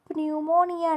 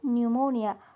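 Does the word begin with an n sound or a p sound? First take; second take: p sound; n sound. First: The word begins with a p sound. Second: The word begins with an n sound. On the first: The speaker calls it wrong. "प्न्यूमोनिया नाही" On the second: The speaker calls it right.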